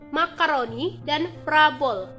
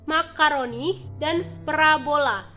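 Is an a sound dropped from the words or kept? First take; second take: dropped; kept. First: An a sound in the words is dropped. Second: Every a sound in the words is kept. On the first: The speaker calls it wrong. "pelafalan tidak bakunya" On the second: The speaker calls it right. "Lafalan bakunya"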